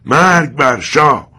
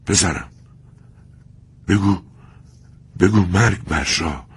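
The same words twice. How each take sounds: First: Very loud, much higher, slow defiant cry; defiant shout. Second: "مرگ بر شاه" in broken, halting words; dying father, gasping between words; broken gasps. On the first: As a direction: hurl "مرگ بر شاه" at them, long and loud. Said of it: "چنان فریاد کشید". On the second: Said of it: "بریده بریده گفت". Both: Acted.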